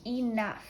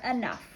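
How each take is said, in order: First: Enough with a clear ee at the start; ee-nuff. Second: Enough with a weak uh at the start; uh-nuff. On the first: Teacher to students, careful ee-nuff. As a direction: say Enough as ee-NUFF, full ee vowel. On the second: Teacher to students, relaxed uh-nuff. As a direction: say enough as uh-NUFF, reduced first vowel. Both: Shown as a demonstration. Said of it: "sometimes we say".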